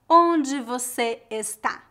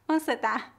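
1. Cada sílaba da frase é pronunciada por completo. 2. As sílabas são omitidas e as palavras se juntam. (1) "o mineiro não vai dizer" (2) "Eles fazem muitas reduções"

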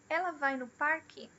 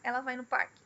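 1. A entonação sobe e depois desce no final. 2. A entonação se mantém uniforme do início ao fim da frase. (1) "Tem esse up and down na entonação da pergunta" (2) "é estável, é regular"

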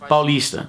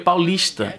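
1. O s soa simples, como um sibilo. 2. O s soa chiado, como sh. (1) "paulistas falam mais como paulista" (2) "com o S chiado como um carioca fala"

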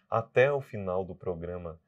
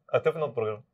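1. A frase é falada em ritmo lento. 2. A frase é falada em ritmo rápido.

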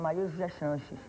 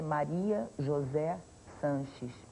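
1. O nome é dito rápido, com os sons emendados. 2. O nome é dito num ritmo cuidadoso e devagar.

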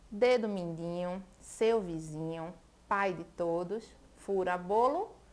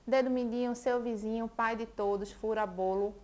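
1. É lida devagar, com pausas entre as frases. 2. É lida com um ritmo forte e constante. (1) "Eu li agora pausado" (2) "mas eu vou ler bem ritmado"

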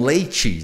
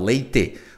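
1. A palavra termina com som de I. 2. A palavra termina com um E bem forte. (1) "Com som de I" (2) "com o E bem forte no final"

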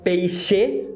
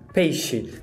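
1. A vogal final é plena e forçada. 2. A vogal final é reduzida e fraca. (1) "Você não fala peixe" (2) "ele não é tão forçado, ou seja, a vogal reduz"

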